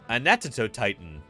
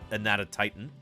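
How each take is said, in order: First: The name is said with an extra syllable. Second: The name is said with five syllables. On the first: "as John Goodman pronounces it" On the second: "formerly known as Anatotitan"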